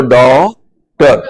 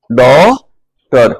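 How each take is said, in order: First: डॉक्टर drawn out, flat आ gliding up into ओ; drawn-out vowel. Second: डॉक्टर very slow, vowel between आ and ओ; drawn-out vowel. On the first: Teacher to students, demonstrating डॉक्टर, slow and drawn out. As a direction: stretch डॉक्टर slowly, आ then rising to ओ. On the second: Teacher repeating डॉक्टर for class, very slow and drawn. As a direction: hold the first vowel of डॉक्टर long then lift. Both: Shown as a demonstration. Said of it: "फिर इसके साथ ओ बोलना है".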